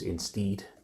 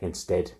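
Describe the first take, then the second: First: The last vowel sounds like 'seed'. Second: The last vowel sounds like 'bed'.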